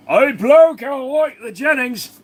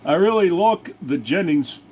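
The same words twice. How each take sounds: First: High-pitched, drawn-out Aussie bloke; exaggerated high Australian accent; put-on Australian accent. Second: Said in the usual way. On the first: Put-on foreigner voice repeating the line.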